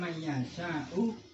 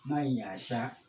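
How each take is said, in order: First: The final vowel is pronounced at the end. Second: The word stops on the final consonant. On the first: "saya baca mayyasha'u" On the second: "hamzah itu diwakofkan di sini"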